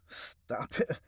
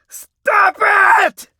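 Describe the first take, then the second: First: It is said quietly and low. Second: It is screamed very loudly. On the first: "he's talking to himself like low" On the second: "then I'm just going to like you know scream and just let it out"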